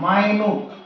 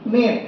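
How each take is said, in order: First: The first vowel sounds like 'eye', ending 'newt'. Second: The first vowel sounds like 'ih', ending 'nit'. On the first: Something very tiny or fine. "এই মিনিটটাই যদি উচ্চারণ করো মাইনুট" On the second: A unit of sixty seconds. "মিনিট যখন হচ্ছে sixty মিনিট"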